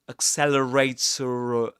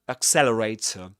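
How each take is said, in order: First: A final R sound links into the next vowel. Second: The final R sound is not pronounced. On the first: "we call this this pronounced r sound in this case um, a linking r" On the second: "The last um, sound, the last letter is not pronounced"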